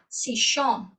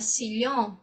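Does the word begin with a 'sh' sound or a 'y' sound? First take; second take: sh; y. First: The word begins with a 'sh' sound. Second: The word begins with a 'y' sound. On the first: This is how it is said in Argentina. "pronunciarem com som de chá" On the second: This is how it is said in Spain. "já na Espanha"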